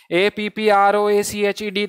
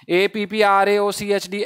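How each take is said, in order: First: "A P P R O A C H E D" spelled letter by letter, slow, with two P's; spelled out slowly. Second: "A P P R A O C H D" spelled letter by letter, slow, A before O; wrong spelling, spelled out. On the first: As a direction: spell "A P P R O A C H E D" slowly, one letter at a time, doubling the P. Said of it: "दो P आएंगे क्या?". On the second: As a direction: spell "A P P R A O C H D" slowly as the wrong option. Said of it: "ये तो बिल्कुल ही गलत हो गया". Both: Shown as a demonstration.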